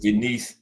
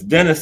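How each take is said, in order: First: The name is pronounced the foreign way. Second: The name is pronounced the English way. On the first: "Denise in uh over there" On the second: "It's Dennis in English"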